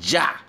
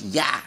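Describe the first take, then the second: First: The double L sounds like a j. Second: The double L sounds like a y. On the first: "depending on the accent of the country, they say ja for two L's" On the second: "two L's, it's ya"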